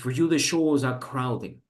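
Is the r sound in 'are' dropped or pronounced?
dropped. The r in 'are' is dropped, British style. The speaker calls it right. "like kind of British pronunciation"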